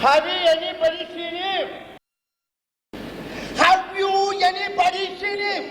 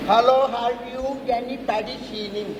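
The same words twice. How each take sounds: First: Shouting the question. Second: Said in the usual way. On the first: Acted. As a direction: bellow it slowly, word by word. (உரத்த கூச்சல்) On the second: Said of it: "repeats the question louder".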